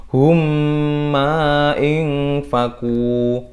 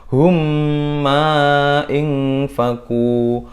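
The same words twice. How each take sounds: Both takes have the same delivery.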